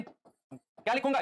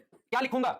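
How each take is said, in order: First: Slow drawn-out prompt. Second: Said in the usual way. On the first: Shown as a demonstration. Teacher coaxing the class for the answer, slow and rising. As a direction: stretch क्या लिखूंगा out slowly with a rising end.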